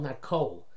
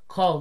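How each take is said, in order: First: The vowel is said as a cholam. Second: The vowel is said as a kamatz. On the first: The speaker calls it wrong. "not with a kol, cholam" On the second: The speaker calls it right. "is with a kamatz"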